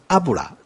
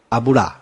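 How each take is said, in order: First: The stress falls on the first syllable. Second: The stress falls on a later syllable. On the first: The speaker calls it right. "重音在第一个" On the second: The speaker calls it wrong. "阿布拉是错的"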